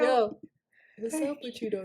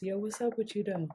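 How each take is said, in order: First: Low and smooth, not much push; a lightly voiced come-on; smooth pickup line. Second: Low, soft, confident pickup line; smooth low pickup line. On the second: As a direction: lay the riz on low and smooth. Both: Shown as a demonstration.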